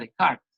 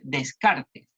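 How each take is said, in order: First: The name is said with French sounds. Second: The name is read with Spanish sounds. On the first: "en francés se pronunciaría Descartes" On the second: "que dice Descartes"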